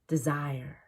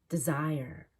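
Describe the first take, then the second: Both takes have the same delivery.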